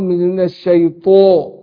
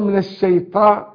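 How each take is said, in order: First: The long a is heavy, with a full dark sound. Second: The long a is light, with a thin sound. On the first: The speaker calls it right. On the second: The speaker calls it wrong.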